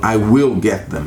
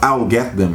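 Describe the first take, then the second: First: I and will are said as separate words. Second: I and will are contracted into one syllable. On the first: "você não contrai, né, o I com will" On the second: "Você não fala I'll get them"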